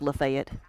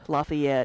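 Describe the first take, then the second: First: It is said the local Kentucky way. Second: It is said the usual, expected way. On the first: "it's called Lafayette" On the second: "instead of"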